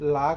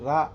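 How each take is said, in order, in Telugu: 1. ఆ అక్షరం L శబ్దంతో మొదలవుతుంది. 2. ఆ అక్షరం R శబ్దంతో మొదలవుతుంది. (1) "లా కాదు"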